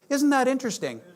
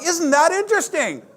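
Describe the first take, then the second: First: It is said in a mild, easy tone. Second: It is said in a firm, assertive tone.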